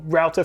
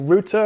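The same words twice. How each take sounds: First: It is said with an American accent. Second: It is said with a British accent.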